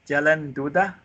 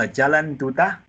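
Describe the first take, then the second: No difference in how they are said.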